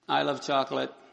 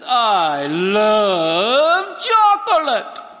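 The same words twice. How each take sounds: First: It is said in a flat monotone. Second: It is said with lively, emotional melody. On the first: It only conveys an idea. "in a monotone voice" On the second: It conveys a felt emotion. "he's communicating the emotion he feels"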